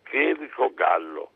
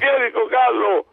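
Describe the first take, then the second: First: The name is said quietly and timidly. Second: The name is said loudly and boldly. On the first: The speaker is shy and unsure. "sommessamente dico" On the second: The speaker has gathered courage. "parla un po' più forte... mi sono fatto coraggio"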